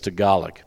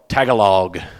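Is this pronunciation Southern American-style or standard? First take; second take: standard; Southern American. First: It is pronounced the standard, native way. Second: It is pronounced the way a Southern American would. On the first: The speaker calls it right. "but it's Tagalog" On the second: The speaker calls it wrong. "I called it Tagalog first time I was here, like a South Georgia person would"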